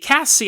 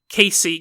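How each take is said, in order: First: The first vowel is a short 'a' sound. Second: The first vowel is a long 'ay' sound. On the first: The speaker calls it right. "I think it's Cassie" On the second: The speaker calls it wrong. "I'm sorry if I've been pronouncing it wrong"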